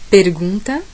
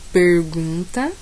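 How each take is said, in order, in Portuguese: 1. É falado com sotaque da capital paulista. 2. É falado com sotaque do interior paulista. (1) "Capital paulista" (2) "Interior paulista"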